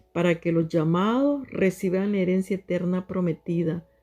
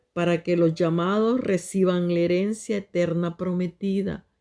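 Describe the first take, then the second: No difference in how they are said.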